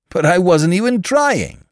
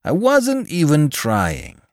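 First: High, loud indignant protest; acted indignation, pitched way up. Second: Slow, high indignant repeat; drawn-out indignant insistence. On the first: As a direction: protest your innocence, voice shooting up. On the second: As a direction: spell it out slowly, pitched up in protest. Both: A narrator's reading. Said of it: "he explained indignantly".

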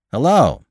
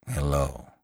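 First: High, loud hello; called greeting. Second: Low, soft, tired hello; weary. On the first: Driver calling to a walker on the road, calling out. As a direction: call out a hello from inside. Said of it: "called the man inside". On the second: Lantry answering the driver who stopped, weary. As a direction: answer wearily, dropping low and quiet. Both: A narrator's reading.

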